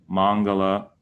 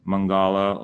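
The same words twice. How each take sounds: First: Mangala with a flat long first ah; butchered pronunciation. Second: Mangala with the stress shifted to a long middle ah; butchered pronunciation. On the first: Teacher showing how people butcher Mangala. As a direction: say Mangala the gringo way. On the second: Teacher showing a second butchered Mangala. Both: Shown as a demonstration. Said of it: "or however they butcher it".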